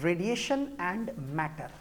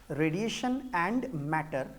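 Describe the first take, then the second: No difference in how they are said.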